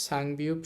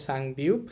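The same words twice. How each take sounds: No difference in how they are said.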